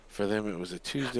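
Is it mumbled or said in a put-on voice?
mumbled. It is mumbled in the speaker's own voice.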